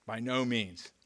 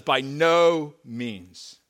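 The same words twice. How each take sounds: First: "by no means" repeated softer and falling; quiet echo. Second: "By no means" drawn out very slow and loud, "no" hit hard; emphatic exclamation. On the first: Pastor echoing Paul's answer, softer and falling. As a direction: let the repeat settle quietly. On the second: Paul's denial read to the church, slow and pounding. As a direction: hammer each word like an exclamation point. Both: Acted. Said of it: "There's an exclamation point here".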